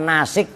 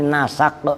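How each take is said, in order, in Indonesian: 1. Kata ini memiliki vokal i setelah s. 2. Kata ini memiliki vokal a setelah n dan s. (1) "bukan nasik juga" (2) "dengan dibaca fathah sinnya, ... tapi nasak"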